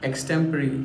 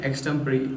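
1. यह शब्द 'ree' की ध्वनि से खत्म होता है। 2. यह शब्द 'ree' की ध्वनि से खत्म होता है।

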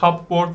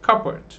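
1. B telaffuz ediliyor, cup artı board gibi. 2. B sessiz ve parçalar birleştirilerek okunur. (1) "cupboard falan diye okudum ama cupboard diye okunmuyor" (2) "B'yi yutun. Şunu da I olarak okuyup devam edin"

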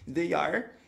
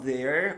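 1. Se fala como duas palavras separadas e completas. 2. Se fala como uma sílaba só, contraída.

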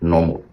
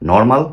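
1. শেষ অক্ষরটি mol এর মতো শোনাচ্ছে। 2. শেষ অক্ষরটি mal এর মতো শোনাচ্ছে। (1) "লাস্টে MLটা MOL এর মতো উচ্চারণ হবে" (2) "নর্মাল না বলে কী বলতে হবে"

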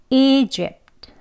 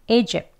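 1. 끝 t 소리를 분명히 냅니다. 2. 끝 t 소리는 아예 내지 않습니다. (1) "트라는 소리 끝소리를 하기도 하지만요" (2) "이 트 소리까지 내지 않습니다. 그냥 읍에서 끝나요"

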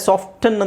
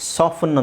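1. ಮಧ್ಯದಲ್ಲಿ t ಶಬ್ದ ಉಚ್ಚರಿಸ್ತಾರೆ. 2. ಮಧ್ಯದಲ್ಲಿ t ಶಬ್ದ ಸೈಲೆಂಟ್ ಆಗಿರುತ್ತೆ. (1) "ಸಾಫ್ಟನ್ ಅಂತಲೂ ಹೇಳ್ತಾರೆ" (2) "ಸಾಫನ್ ಅಂತಲೂ ಹೇಳ್ತಾರೆ"

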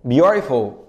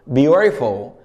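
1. الـ t في الوسط هو طرقة سريعة باللسان. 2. الـ t في الوسط هو طرقة سريعة باللسان.

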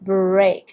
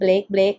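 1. เสียง r ออกเสียงชัดเจน 2. เสียง r หายไปหรือไม่ชัด (1) "อย่างนี้นะคะ" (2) "ไม่ใช่"

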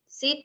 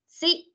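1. Nguyên âm này được đọc ngắn. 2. Nguyên âm này được đọc dài. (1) "Đọc như thế thì không ra âm y được nha" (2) "đọc dài âm ra một chút"

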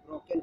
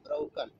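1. बलाघात दूसरे अक्षर पर है। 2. बलाघात पहले अक्षर पर है। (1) "न कि ब्रोकन हम पढ़ेंगे" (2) "यहाँ ब्रोकन होता है"

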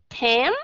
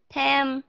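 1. Cao độ đi lên suốt từ này. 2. Cao độ giữ bằng suốt từ này. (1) "Lên nó như thế này nè" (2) "Bằng nhau là nó vậy nè"

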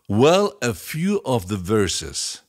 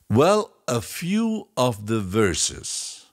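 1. La frase se dice a una velocidad normal. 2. La frase se dice más despacio.

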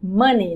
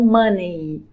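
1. A última sílaba soa como 'nee'. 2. A última sílaba não soa como 'nee'. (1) "Money, ni, ni, money" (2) "não money"

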